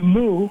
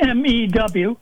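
First: The vowel is a plain 'oo', like 'moo'. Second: The vowel has a 'y' glide, like 'mew'. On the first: The speaker calls it wrong. "it always sounds odd to me when people say moo, because it sounds like a cow" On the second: The speaker calls it right. "we pronounce the letter that's spelled mu as if it was spelled mew"

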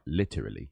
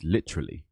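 First: Every syllable is pronounced fully and separately. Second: The syllables are mashed together, London style. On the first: The speaker calls it wrong. "It's not literally" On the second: The speaker calls it right. "if you're from London, then it's literally. You have to mash some of your syllables together"

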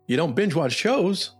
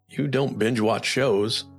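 First: It is said with a higher pitch. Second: It is said with a lower pitch. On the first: The speaker sounds curious and interested. The speaker calls it right. "A higher pitched tone is going to sound more interesting" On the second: The speaker sounds judgmental. The speaker calls it wrong. "a lower pitched tone is going to sound maybe a little judging"

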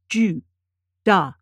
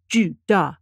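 First: The syllables are said slowly with gaps between. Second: The syllables are said quickly and run together. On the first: "I will read the characters sort of spaced" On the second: "then I will read them faster, closer together"

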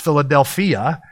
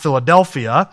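First: The word carries the original Greek stress pattern. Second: The word carries the usual English stress pattern. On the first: The speaker calls it right. "It's Philadelphia" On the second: The speaker calls it wrong. "like we would pronounce Philadelphia. They actually accent that wrong"

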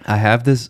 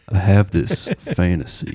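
First: It is said in a normal voice. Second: It is said very low, close to the mic.

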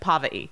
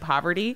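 First: The word is cut short, dropping its middle. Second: The word is said in full, every syllable. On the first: "you just gave up midway through the word" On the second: "instead of saying poverty"

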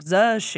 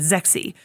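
First: The name is said with a Chinese-style reading. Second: The name is said with an English-style reading. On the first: The speaker calls it right. "it's correctly pronounced. I'm still going to butcher it, but like Z-she" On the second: The speaker calls it wrong. "in our English, we would say Zexi"

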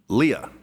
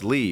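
First: The name is said with two syllables. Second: The name is said with one syllable. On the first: The speaker calls it wrong. "they will say Leah" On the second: The speaker calls it right. "no, that's Lee"

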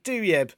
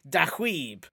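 First: The name sounds like doo-yeb. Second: The name sounds like dah-weeb. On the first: This is the North London way the family has said it. The speaker calls it wrong. "I've always pronounced it Duyeb" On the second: This follows the family's Algerian origin. The speaker calls it right. "so it should be Dahweeb"

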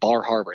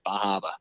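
First: The R sounds are clearly pronounced. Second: The R sounds are dropped. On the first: The speaker calls it wrong. "it's not Bar Harbor" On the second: The speaker calls it right. "We don't say R's"

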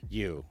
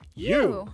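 First: The word is said plainly, without extra energy. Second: The word is said loudly, with exclamatory energy. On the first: The speaker calls it wrong. "It's not just you" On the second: The speaker calls it right. "I have to say it like that because it has the exclamation point"

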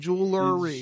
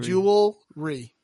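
First: An extra vowel is heard before the r. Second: No extra vowel is heard before the r. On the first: The speaker calls it wrong. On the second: The speaker calls it right.

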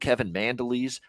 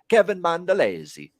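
First: The surname is said the anglicized English way. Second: The surname is said the Italian way. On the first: This is how North American speakers say it. "they're calling him Kevin Mandelis" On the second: This is how a true Italian would say it. "That's the Italian way to say it"

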